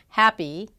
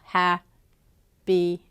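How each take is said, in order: First: The syllables flow together smoothly. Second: The syllables are separated with equal stress. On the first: The speaker calls it right. "instead of saying happy" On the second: The speaker calls it wrong. "using equal stress and segmenting the syllables"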